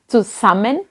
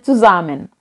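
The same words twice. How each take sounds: First: The middle s sounds like a hissing s. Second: The middle s sounds like a buzzing z. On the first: The speaker calls it wrong. "saya bacanya bukan zusammen" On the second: The speaker calls it right. "huruf S dalam bahasa Jerman yang di um, antara vokal dibaca z biasanya"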